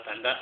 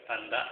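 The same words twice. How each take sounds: The two takes are said the same way.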